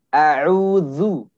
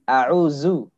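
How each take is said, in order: First: The middle consonant is a 'th' as in 'this'. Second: The middle consonant is a buzzing 'z' sound. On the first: The speaker calls it right. "ujung lidah bertemu dengan ujung gigi seri yang atas" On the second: The speaker calls it wrong. "huruf dzal ini tadi terdengar seperti zai a'uzu"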